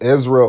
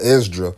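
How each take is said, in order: First: The middle consonant is a single z sound. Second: The middle consonants are an s then d. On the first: "in the Bible it's spelled E Z R A" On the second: "in the pseudepigrapha, it's spelled E S D R A"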